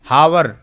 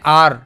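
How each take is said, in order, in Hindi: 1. शब्द साफ़ h की आवाज़ से शुरू होता है। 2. शब्द स्वर से शुरू होता है, h की आवाज़ नहीं है। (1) "इसको हावर पढ़ना चाहिए।" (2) "अब जैसे कहते हैं आर"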